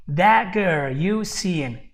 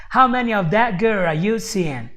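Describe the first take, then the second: First: Put-on "That girl you seeing" slow, each word given its own weight; stressed words only. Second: Put-on whole question with "that girl" and "you seeing" emphasized; sentence stress. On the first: Teacher isolating emphasized words for students, slow even stress on "That girl you seeing". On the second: Teacher repeating the quote for students, stress on "that girl", "you seeing". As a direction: lean on "that", "girl", "you", "seeing", passing lightly over the rest. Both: Shown as a demonstration. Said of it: "choose to emphasize these particular words".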